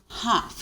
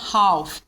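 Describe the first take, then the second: First: The L sound is silent. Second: The L sound is pronounced. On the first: The speaker calls it right. "O L, ele é sh, silenced" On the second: The speaker calls it wrong. "nunca vai falar half, please"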